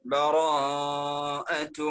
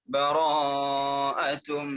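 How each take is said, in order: Both takes have the same delivery.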